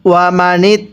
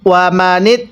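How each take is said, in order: The two takes are said the same way.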